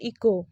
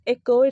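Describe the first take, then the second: First: Eco with an ee at the start; eco, the wrong way, starting with ee; wrong ee sound. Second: Echo, starting with e as in bed; correct echo. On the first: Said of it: "it's not eco". (eco गलत, ई से शुरू) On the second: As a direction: echo said loud with an e sound. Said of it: "it's echo". (echo ज़ोर से, ए से शुरू) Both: Shown as a demonstration.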